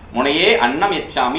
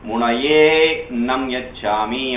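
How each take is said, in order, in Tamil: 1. annam-ல் தொடங்கும் உயிரெழுத்து தெளிவாக உச்சரிக்கப்படுகிறது. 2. அந்த உயிரெழுத்து விழுங்கப்பட்டு 'e' நீட்டப்படுகிறது. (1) "சாதாரணமா சொல்றீங்க" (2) "அப்படின்னு வரணுங்க"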